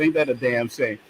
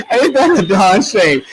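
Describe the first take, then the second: First: Said in the usual way. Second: Higher, louder, slow and laughing; amused, drawn-out self-correction. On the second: Real, not acted. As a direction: repeat it through laughter, leaning on the cleaned-up word. Laughingly corrects the swear word.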